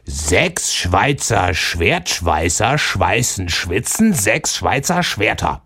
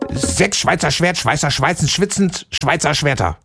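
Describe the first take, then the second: First: It is said slowly. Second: It is said very fast.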